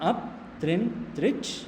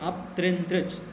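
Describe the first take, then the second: First: The phrase is said slowly and carefully. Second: The phrase is said at normal speed.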